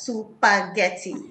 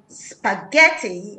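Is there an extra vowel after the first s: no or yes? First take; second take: yes; no. First: An extra vowel splits the s and p. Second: The word starts with a plain sp cluster. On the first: The speaker calls it wrong. "saying spaghetti as supaghetti" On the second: The speaker calls it right. "saying spaghetti as supaghetti"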